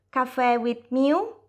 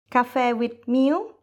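Both takes have the same delivery.

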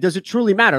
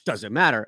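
First: It is asked in a sincere, exploring way. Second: It is asked in a dismissive way.

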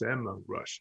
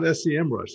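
First: SEM is said as a single word. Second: SEM is spelled out as separate letters. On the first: The speaker calls it right. "it's SEMrush. It's official now" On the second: The speaker calls it wrong. "Not SEMrush"

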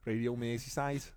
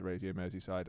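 First: It is said in a Liverpool accent. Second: It is said in the speaker's ordinary accent.

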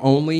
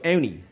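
First: It is said in a standard accent. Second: It is said in a Philadelphia accent.

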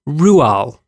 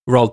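First: The name starts with a 'Roo' sound. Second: The name starts with a 'Roh' sound. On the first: The speaker calls it right. "You want to know how you pronounce his name?" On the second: The speaker calls it wrong. "I would have said that too. If you'd asked me"

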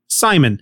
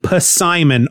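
First: The initial P is silent, starting with S. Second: The initial P is pronounced before the S.

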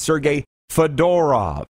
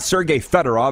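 First: Fedorov is stressed on the middle syllable. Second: Fedorov is stressed on the first syllable. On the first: The speaker calls it right. "you need to put the emphasis on the middle syllable" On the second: The speaker calls it wrong. "It's not Sergei Fedorov"

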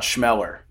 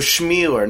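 First: The vowel after 'Schm' is a short E. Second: The vowel after 'Schm' is a long E. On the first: The speaker calls it wrong. "not Schmeller" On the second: The speaker calls it right. "long E"

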